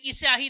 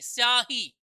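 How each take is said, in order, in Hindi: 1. प्रारंभिक 's' से पहले एक अतिरिक्त 'i' स्वर आता है। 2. शब्द सीधे 'sya' से शुरू होता है, कोई अतिरिक्त स्वर नहीं। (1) "इस स्याही नहीं" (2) "स्या पूरा बोलना पड़ेगा आपको"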